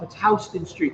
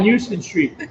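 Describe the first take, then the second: First: Houston is said the way locals say it. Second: Houston is said the way a tourist would. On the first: The speaker knows the city. The speaker calls it right. "No, jerk off, it's Houston Street" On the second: The speaker is an outsider to the city. The speaker calls it wrong. "look at this fucking tourist over here"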